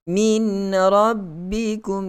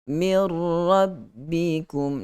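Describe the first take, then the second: First: A clear n sound is heard before the r. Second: The n merges fully into the r sound. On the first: The speaker calls it wrong. "Kita tidak baca dengan min rabbikum" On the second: The speaker calls it right. "tiada lagi bunyi nun"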